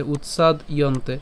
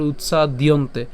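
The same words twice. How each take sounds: First: "উৎসাদ ইয়ন্তে" in two parts, utsad + iyonte; split pronunciation. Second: "উৎসাদিয়ন্তে" run together, utsa-diyonte; joined pronunciation. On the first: Teacher breaks up the compound for learners, split pronunciation. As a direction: close "উৎসাদ" on d, then start "ইয়ন্তে" separately. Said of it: "তাহলে ইয়ন্তে". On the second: Teacher says the compound all together, joined pronunciation. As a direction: carry the d straight into "diyonte" in "উৎসাদিয়ন্তে". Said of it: "আর একসাথে যদি উচ্চারণ করি". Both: Shown as a demonstration.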